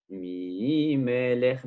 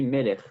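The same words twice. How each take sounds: First: MI held long in a sung tone, then MELECH; chanting. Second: Said in the usual way. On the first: Shown as a demonstration. Teacher showing the wording not to say, "Mi Melech" slowly chanted. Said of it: "on ne dit pas". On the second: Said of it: "mais on dit Melech".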